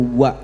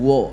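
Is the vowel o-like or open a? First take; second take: open a; o-like. First: The vowel is an open a. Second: The vowel is rounded, like o. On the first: The speaker calls it right. "wawu fathah itu wa ya" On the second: The speaker calls it wrong. "bukan wo gitu"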